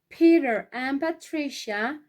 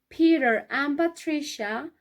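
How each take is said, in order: The two takes are said the same way.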